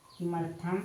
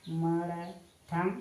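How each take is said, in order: First: Said in the usual way. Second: "किमर्थम" very slow, syllables drawn apart; slow dictation. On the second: Shown as a demonstration. Teacher writing the Sanskrit question word for students, slow dictation. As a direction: stretch out each syllable of the word.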